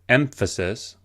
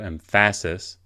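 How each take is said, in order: First: The stress is on the first syllable. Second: The stress is on the second syllable. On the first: The speaker calls it right. "we emphasize the first syllable" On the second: The speaker calls it wrong. "as opposed to"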